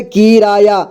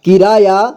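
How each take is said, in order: First: किराया broken into कि, रा, या; syllable by syllable. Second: Said in the usual way. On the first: Shown as a demonstration. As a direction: spell out किराया as कि-रा-या. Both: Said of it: "एक ही बार में पढ़ेंगे".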